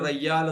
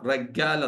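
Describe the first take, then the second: First: The doubled middle consonant is a y sound. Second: The doubled middle consonant is a g sound. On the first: This is how it is said in the UAE. "U എയിൽ റയ്യാൽ എന്ന് പറയും" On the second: This is how Egyptians say it. "Egyptians പറയാ റഗ്ഗാൽ എന്നാവും"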